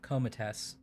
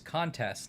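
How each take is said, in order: First: The first syllable ends with an M sound. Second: The first syllable ends with an N sound. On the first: The speaker calls it wrong. "not comatess" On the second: The speaker calls it right. "I think it's contest"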